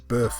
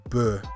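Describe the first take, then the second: First: The word ends with an f sound. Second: The word ends without an f sound. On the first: It sounds the same as the singular. The speaker calls it wrong. "I also assumed that the plural would be bœuf as well, just like the singular" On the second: It sounds different from the singular. The speaker calls it right. "you actually remove a sound in speech"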